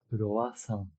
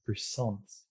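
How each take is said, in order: First: It is said with Japanese-style pronunciation. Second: It is said with English-style pronunciation. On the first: "In Japanese, the pronunciation is quite different. We have this croissant" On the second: "whereas in English we have croissants"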